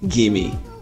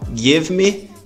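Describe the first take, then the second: First: The two words blend into one short word. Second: The two words are said fully and separately.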